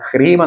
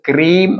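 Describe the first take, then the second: First: The word begins with an H sound. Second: The word begins with a K sound. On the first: The speaker calls it right. "ഹ്രീം എന്നാണ് പറയേണ്ടത്" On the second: The speaker calls it wrong. "ക്രീം എന്നല്ല"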